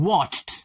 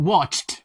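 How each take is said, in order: No difference in how they are said.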